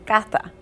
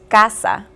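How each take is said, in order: First: The middle consonant is a th sound. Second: The middle consonant is an s sound. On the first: "they must say cata" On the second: "instead of saying, for instance, casa"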